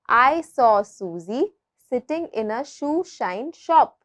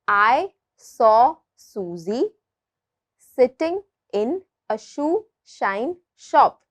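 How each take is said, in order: First: The sentence is said at a faster pace. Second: The sentence is said at a slower pace. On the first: "let's try to say it a bit faster" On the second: "I will repeat it once again"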